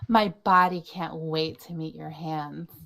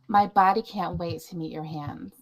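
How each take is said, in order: First: It is read with more punch and energy. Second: It is read plainly, without extra punch.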